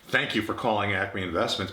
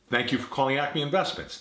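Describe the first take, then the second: First: It sounds extremely flat and uninterested. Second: It sounds warm, attentive and engaged. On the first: The speaker clearly does not care about the caller. The speaker calls it wrong. "I could exaggerate it" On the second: The speaker is attentive to the caller. The speaker calls it right. "By contrast"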